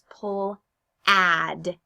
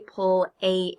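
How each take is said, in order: First: The vowel is a short A sound. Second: The vowel is a long A sound. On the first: The speaker calls it right. "It's a short A sound" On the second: The speaker calls it wrong. "It doesn't say pull a, a, aid"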